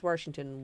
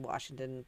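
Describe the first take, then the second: First: "Washington" with an added r, like Warshington; regional pronunciation. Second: Said in the usual way. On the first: Shown as a demonstration. Explaining the regional accent to friends, "Washington" said as Warshington. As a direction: slip an r into the first syllable of "Washington". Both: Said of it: "It's a regional accent".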